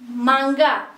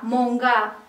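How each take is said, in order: First: The first syllable has the vowel a. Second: The first syllable has the vowel o.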